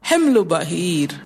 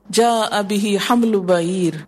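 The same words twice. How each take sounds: First: حمل بعیر said slowly with حمل stressed, no vowel after the l, as himl; correct reading. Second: Slow, حمل read as hamlu, with the vowel u after the l; hypothetical wrong reading. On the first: (حمل بعیر کو آہستہ اور صحیح پڑھیں) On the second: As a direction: read حمل as hamlu to show the clumsy version. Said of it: "حملو نہیں آیا، اور اگر آتا بھی". (حمل کو حملو پڑھ کر غلط قراءت دکھائیں) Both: Shown as a demonstration.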